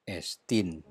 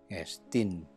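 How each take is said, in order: No difference in how they are said.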